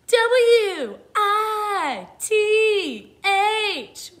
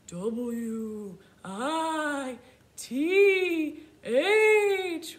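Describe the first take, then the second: First: It is spelled in a rock star voice. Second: It is spelled in a spooky ghost voice. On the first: "Let's spell it like a rock star" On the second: "Let's try it like a spooky ghost"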